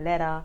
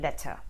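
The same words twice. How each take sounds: First: The middle consonant sounds like a D. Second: The middle consonant sounds like a T. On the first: "the T gets substituted for a D" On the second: "instead of letter"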